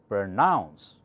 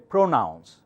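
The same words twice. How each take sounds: First: The stress is on the second syllable. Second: The stress is on the first syllable. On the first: The speaker calls it right. "Pr softer, nounce louder" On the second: The speaker calls it wrong. "you cannot say pronounce"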